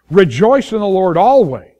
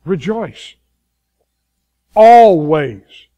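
First: "Rejoice in the Lord always" read louder, falling at the end; first reading of the verse. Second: "Rejoice" soft, "Always" much louder; quiet Rejoice, then loud Always. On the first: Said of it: "is this". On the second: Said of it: "Exactly what it says". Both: Shown as a demonstration.

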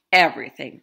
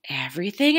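First: "everything" said lower and falling, settled; firm reply. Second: "Everything?" asked with a rising, doubtful tune; surprised question. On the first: Grandma insisting to Grandpa, "everything" low and firm. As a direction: put "everything" down firmly with a falling tune. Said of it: "replied Grandma". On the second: Grandpa doubting Grandma's plan, "Everything?" rising in disbelief. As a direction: question the word "Everything?" with a lift at the end. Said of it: "asked Grandpa". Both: A narrator's reading.

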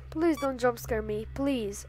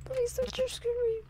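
First: Said in the usual way. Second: Higher, fast, scared begging; frightened pleading. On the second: Real, not acted. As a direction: beg fast in a panicked voice. Begging the animatronic.

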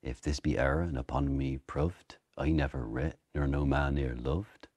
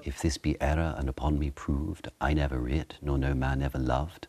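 First: Shakespeare's original-pronunciation accent. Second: Posh recited Shakespeare accent. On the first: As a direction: rhyme proved with loved in an Elizabethan accent. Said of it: "in original pronunciation". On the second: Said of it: "the posh one you would have taught it". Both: Shown as a demonstration.

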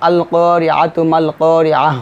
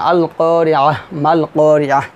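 First: Slow recitation, করিয়াতু runs into মাল with a sounded "tu"; joined recitation. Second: Drawn-out vowels, each করিয়াহ closed separately with h; paused recitation. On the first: Teacher reading two verses together, joined recitation. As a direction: stretch the long vowels, join করিয়াতু to মাল, end করিয়াহ on h. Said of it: "দুই পেশ দিলেও". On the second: Teacher breaking the verses apart, paused recitation. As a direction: stop after each করিয়াহ on a soundless-vowel "h", then pause. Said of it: "জজমের মতো উচ্চারণ হবে". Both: Shown as a demonstration.

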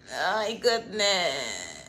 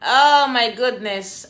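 First: Slow sigh. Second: Slow louder exclaim. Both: Real, not acted. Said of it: "repeated exclamation".

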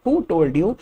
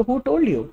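First: "who" stressed and rising; a rising challenge, lead with "who"; plain demo of "Who told you". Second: "told" stressed and falling; a short challenging question, punch "told"; higher demo of "Who told you". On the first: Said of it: "आपको किसने कहा?". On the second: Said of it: "simple क्या कहेंगे इतने sentence को?". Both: Shown as a demonstration.

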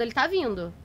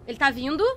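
First: Said in the usual way. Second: "vindo" rising as a question. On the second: Real, not acted. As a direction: ask it, lifting the pitch on "vindo". Asks whether it follows.

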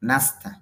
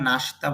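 First: নাস্তা with dental স joined to ত; correct pronunciation. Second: Said in the usual way. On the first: Shown as a demonstration. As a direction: say নাস্তা with a clean dental স্ত cluster. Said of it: "দন্ত স দিয়ে ত সংযুক্তর মতো হবে". (দন্ত স আর ত মিলিয়ে নাস্তা) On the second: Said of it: "যদিও আমরা নাস্তা বলি".

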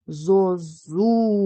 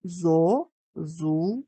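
First: Зозуля joined up, long loud зу; slow, exaggerated stress on зу in Зозуля; stress on second syllable. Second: Slow, with a pause after each syllable; зо, зу, ля, each on its own. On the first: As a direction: call out Зозуля, stretching the middle syllable. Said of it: "вимовимо його так, щоб почути, який склад наголошений". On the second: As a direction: break Зозуля into three separate beats. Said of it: "поділимо його на склади". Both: Shown as a demonstration.

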